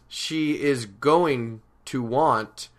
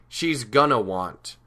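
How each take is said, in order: First: The words are said in full, unreduced. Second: The words are contracted and reduced to gonna. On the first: This is the more formal style. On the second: This is the casual, conversational style.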